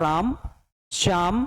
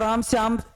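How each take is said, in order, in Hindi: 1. दोनों नामों के बीच एक छोटा सा विराम है। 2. दोनों नाम बिना रुके एक साथ बोले जाते हैं। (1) "ऐसा बोलूंगा" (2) "मैं ऐसा नहीं बोलूंगा"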